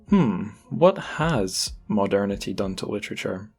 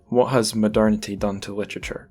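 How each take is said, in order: First: It is asked in a thoughtful, pondering tone. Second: It is asked in a neutral, plain tone.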